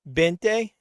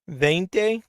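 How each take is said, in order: First: The word starts with a B sound. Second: The word starts with a V sound. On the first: "It's pronounced like a B, I'm pretty sure, not like a V" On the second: "So you do pronounce it as a V instead of a B?"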